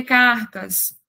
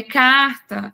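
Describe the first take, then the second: First: Said in the usual way. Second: "carta" stretched slowly and louder, singular form; slow, drawn-out carta. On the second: Shown as a demonstration. Teacher to class, slow louder carta. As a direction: draw out "carta" slowly as the base word. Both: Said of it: "eu consigo dizer cartas".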